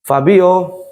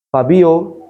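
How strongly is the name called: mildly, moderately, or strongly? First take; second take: moderately; mildly. First: The name is called with slightly more force. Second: The name is called in a plain, mild voice. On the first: The child still does not respond. "agak sedikit intonasi saya" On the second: The child does not respond. "kalau dipanggil sekali"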